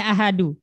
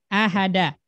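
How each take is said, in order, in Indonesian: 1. Kata ini berakhir dengan vokal 'u'. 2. Kata ini berakhir dengan vokal 'a'. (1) "Tidak boleh ahadu"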